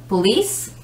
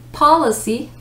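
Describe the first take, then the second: First: POLICE as puh-LEECE, weight on LEECE; second-syllable stress. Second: POLICY as POL-uh-see, weight on POL; first-syllable stress. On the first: Teacher setting police against policy, second-syllable stress. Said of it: "is on the second one". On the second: Teacher setting policy against police, first-syllable stress. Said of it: "stress of the syllable is the first". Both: Shown as a demonstration.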